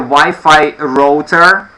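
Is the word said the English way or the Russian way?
Russian. It is said with a Russian pronunciation. "you have the Wi-Fi router in Russian"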